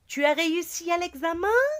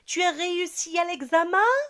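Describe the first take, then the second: First: The voice rises at the end. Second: The same.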